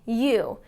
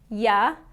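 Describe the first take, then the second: First: The word has a full, clear 'oo' vowel. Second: The word has a short, weak 'uh' vowel. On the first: It sounds formal and precise. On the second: It sounds casual and relaxed.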